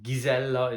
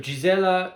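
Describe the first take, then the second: First: The name is pronounced the Hungarian way. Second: The name is pronounced the English way. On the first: "the Hungarian pronunciation" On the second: "the English pronunciation"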